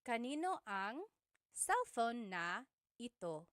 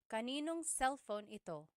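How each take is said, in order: First: Every word is said in full, including na. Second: The words are contracted and na is left out. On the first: This is the technically correct form. "technically there is a na" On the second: This is how people say it in casual conversation. "Whenever someone is speaking quickly, the na is dropped"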